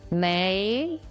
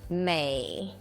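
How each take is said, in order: First: The pitch rises from middle to high. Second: The pitch dips low, then rises.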